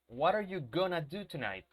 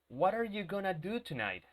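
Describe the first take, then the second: Both takes have the same delivery.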